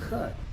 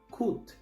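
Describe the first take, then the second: First: The vowel is a short 'uh' sound. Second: The vowel is a full 'oo' sound. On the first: The speaker calls it right. "la U aquí se pronuncia corta" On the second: The speaker calls it wrong. "como se escribe"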